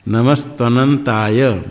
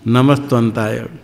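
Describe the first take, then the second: First: The full syllable 'nan' is said before 'taya'. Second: The 'na' syllable is dropped before 'ntaya'. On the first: The speaker calls it right. "अनंताय" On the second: The speaker calls it wrong. "कोई तो बोलते नमस्तंताय"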